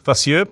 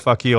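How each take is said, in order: First: The name sounds like 'foss-oo'. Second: The name sounds like 'fuck you'. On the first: This is how the commentators said it. "I heard them say it was like Gael Fossu" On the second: This is how the speaker said it all tournament. "I pronounced it fuck you through the entire uh, World Cup"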